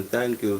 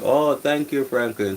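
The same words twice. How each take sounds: First: Said in the usual way. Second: Excited, higher and louder thanks. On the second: Real, not acted. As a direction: burst out with excited gratitude. Thanking a chat member.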